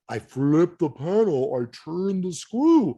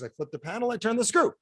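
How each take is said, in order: First: It is said slowly and deliberately. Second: It is said at normal speed.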